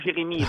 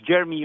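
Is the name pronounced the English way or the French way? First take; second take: French; English. First: The name is pronounced the French way. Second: The name is pronounced the English way. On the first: "depending if you want to pronounce it in English or French" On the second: "depending if you want to pronounce it in English or French"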